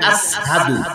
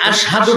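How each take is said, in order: First: The middle consonant is pronounced as 's'. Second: The middle consonant is pronounced as 'sh'. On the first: "শিন বলতে গেলে সিন বের হয়ে যেত" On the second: "শিন"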